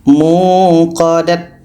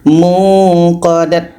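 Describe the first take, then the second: First: The word ends with a t sound. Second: The word ends with a t sound.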